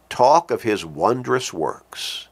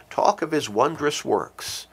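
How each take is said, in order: First: Slow solemn quote, stress on Talk; slow, weighty reading. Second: His lifted high and pressed, the rest of Talk of his wondrous works softer; softer, higher echo leaning on his; stress on his. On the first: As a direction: Talk of his wondrous works said slowly, each word given weight. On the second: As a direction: point it at God with his. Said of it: "Those are not empty words". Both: Shown as a demonstration.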